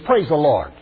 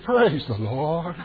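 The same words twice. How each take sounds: First: It is said in a plain, natural voice. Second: It is said in an affected, pompous voice. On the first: The speaker is not yet trying to sound important. The speaker calls it right. "Before he gets ordained" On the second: The speaker is putting on airs after gaining status. The speaker calls it wrong. "We do put on airs"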